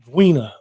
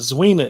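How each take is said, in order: First: The name begins with a hard d sound. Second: The name begins with a z sound. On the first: The speaker calls it right. "it's Dwina, like a dhu" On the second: The speaker calls it wrong. "It's not Zwina"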